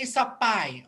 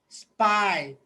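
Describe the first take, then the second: First: An extra vowel separates the s and p. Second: The s and p are joined directly. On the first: The speaker calls it wrong. "Do not say sapay" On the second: The speaker calls it right. "So you have to say spy"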